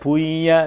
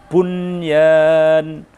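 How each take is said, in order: First: The n is merged into the following y. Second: The n is pronounced clearly before the y. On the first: The speaker calls it wrong. "Tidak boleh dibaca idgham" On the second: The speaker calls it right. "maka harus dibaca izhar bukan idgham"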